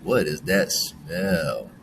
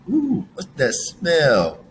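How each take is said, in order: First: Slow and low what is that smell?, turned off by it; mild disgust. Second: Slow, higher Ooh, what's that smell?, curious and wondering; playful curiosity. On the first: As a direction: wrinkle the nose at a bad smell. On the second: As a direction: sniff around, intrigued. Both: Shown as a demonstration. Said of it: "depends on how we're using it".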